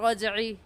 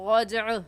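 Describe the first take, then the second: First: The word ends on an i vowel. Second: The word ends on a stopped consonant, no vowel. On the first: The speaker calls it wrong. "गलत" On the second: The speaker calls it right. "सही तरीका"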